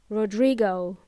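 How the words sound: It is said with English vowels and sounds. "they would pronounce it as"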